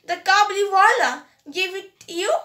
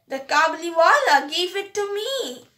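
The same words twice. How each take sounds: First: Fast, rising disbelief on kabuliwala; shocked question, a bit louder; cried out. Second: Said in the usual way. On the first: A narrator's reading. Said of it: "cried her mother". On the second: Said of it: "Minnie said cheerfully".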